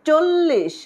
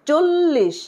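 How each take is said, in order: Both takes have the same delivery.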